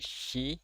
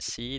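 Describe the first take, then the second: First: It starts with an sh sound. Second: It starts with a plain s sound. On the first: The speaker calls it right. "tapi shi" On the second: The speaker calls it wrong. "bukan si"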